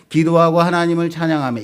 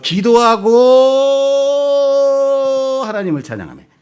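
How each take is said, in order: First: It is read as one phrase without a pause. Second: A long pause comes after the first word.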